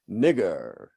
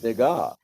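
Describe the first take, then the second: First: It is snarled with a stressed er ending. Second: It is said softly with an ah ending.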